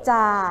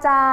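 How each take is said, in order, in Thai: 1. พยางค์นี้ออกเสียงต่ำคะ 2. พยางค์นี้ออกเสียงระดับกลางคะ (1) "จาไม่เอก" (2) "จออาจา"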